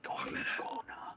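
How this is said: It is whispered quietly.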